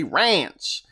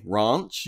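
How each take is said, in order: First: "ranch" drawn out with a short flat a; slow American "ranch", a as in cat; "ranch" as RAENCH, falling at the end; American pronunciation. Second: "ranch" drawn out as "rahnch"; slow "ranch" with a long British ah; "ranch" as RAHNCH, lifted at the end; British pronunciation. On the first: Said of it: "you say ranch". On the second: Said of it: "I say ranch". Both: Shown as a demonstration.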